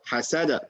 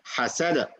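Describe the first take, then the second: First: The final consonant ends with a clear echoing bounce. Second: The final consonant stops without an echoing bounce. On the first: The speaker calls it right. "try that this way" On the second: The speaker calls it wrong. "you say حسد"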